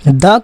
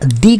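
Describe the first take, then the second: First: The word ends in a short 'uh' vowel. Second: The word ends in a long 'ee' vowel. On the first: It comes before a word starting with a consonant sound. "जब consonant sound हो तो द बोलेंगे" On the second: It comes before a word starting with a vowel sound. "जब वॉल sound हो तो हम दी बोलेंगे"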